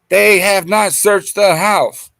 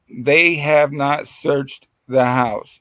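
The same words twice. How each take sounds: First: It is said loudly, as a yell. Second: It is said at a normal volume.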